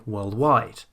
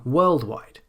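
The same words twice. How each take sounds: First: "worldwide" as world-WIDE; stress on second part. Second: "worldwide" wrongly as WORLD-wide; stress on first part. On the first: Teacher gives the correct compound, stress on WIDE. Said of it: "the stress is on the second syllable". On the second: Teacher shows the form to avoid, stress on WORLD. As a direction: punch "world", let "wide" fall. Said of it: "instead of saying". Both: Shown as a demonstration.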